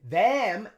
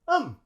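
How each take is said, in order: First: The vowel is a full short E sound. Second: The vowel is reduced to a schwa. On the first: "it's a short E sound" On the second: "We just say um. We use schwa"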